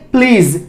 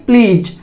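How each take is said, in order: First: प्लीज ending in Z, "pleez"; correct Z ending. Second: प्लीज ending in J, "pleej"; wrong J ending. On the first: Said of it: "इसको कैसे बोलेंगे?". (प्लीज के अंत में ज़ की ध्वनि) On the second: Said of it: "ना कि". (प्लीज के अंत में ज की गलत ध्वनि) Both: Shown as a demonstration.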